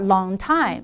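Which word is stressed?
time. The stress falls on the word time. The speaker calls it wrong. "not long time"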